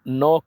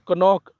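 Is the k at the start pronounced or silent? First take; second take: silent; pronounced. First: The k at the start is silent. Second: The k at the start is pronounced. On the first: The speaker calls it right. "बल्कि नॉक बोलना है" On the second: The speaker calls it wrong. "कनॉक नहीं बोलना है"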